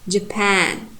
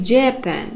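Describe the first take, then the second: First: The stress is on the second syllable. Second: The stress is on the first syllable. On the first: The speaker calls it right. "The second syllable should be strong, primary stressed" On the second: The speaker calls it wrong. "Some people pronounce like Japan, but it's wrong"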